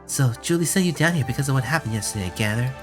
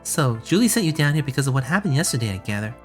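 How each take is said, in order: First: It is said in a rougher, gruff voice. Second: It is said in a smoother, less gruff voice.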